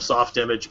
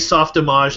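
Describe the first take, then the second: First: The name is pronounced the English way. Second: The name is pronounced the French way.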